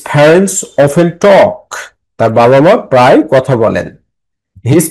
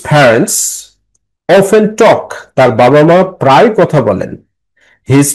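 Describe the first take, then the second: The two takes are said the same way.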